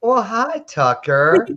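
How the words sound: The greeting is said in a warm, sweet way.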